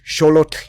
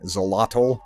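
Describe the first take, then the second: First: It is said with the historical Nahuatl pronunciation. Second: It is said with an anglicized English pronunciation. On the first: The speaker calls it right. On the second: The speaker calls it wrong.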